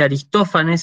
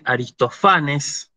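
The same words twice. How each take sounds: First: Said in the usual way. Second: "Aristofanes" said a-ris-to-FA-nes, next-to-last syllable stressed. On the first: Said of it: "Tampoco se dice Aristófanes". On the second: Shown as a demonstration. Teacher corrects to Greek "Aristofanes", stressed a-ris-to-FA-nes. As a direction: move the accent of "Aristofanes" onto FA. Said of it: "sino que se dice".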